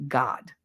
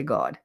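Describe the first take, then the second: First: "God" as GAHD, open AH; articulated vowel. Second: "God" as GAWD, rounded AW; Jersey accent. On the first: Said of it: "I have to actually sit there and think". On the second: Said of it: "So it comes out like". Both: Shown as a demonstration.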